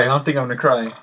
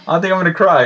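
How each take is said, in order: First: Said in the usual way. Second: Louder, laughing echo of own words; amused self-mockery; laughing repeat.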